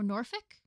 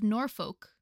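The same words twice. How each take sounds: First: NORFOLK as NOR-fick, questioning; Norfolk with reduced vowel. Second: NORFOLK as NOR-foke, full long O. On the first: Unsure reader offering an alternative, Norfolk said NOR-fick. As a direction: say Norfolk with a short, weak second syllable. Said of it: "you'd think I'd be able to say these". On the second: Unsure reader trying the duke's title, Norfolk said NOR-foke. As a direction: say Norfolk with the second syllable rhyming with oak. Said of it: "or Norfolk?". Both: Shown as a demonstration.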